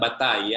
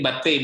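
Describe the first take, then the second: First: "Batai" ending in an "eye" sound; mistaken pronunciation Batai. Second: "Batei" ending in an "ey" sound; correct pronunciation Batei. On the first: Teacher showing the mistake to avoid, "Batai" ending in "eye". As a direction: say "Batai" with final "ai" as in "tie". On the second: Teacher modelling the Hebrew plural, "Batei" ending in "ey". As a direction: say "Batei" with final "ei" as in "say". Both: Shown as a demonstration. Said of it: "bukan ini, bukan Batai ya".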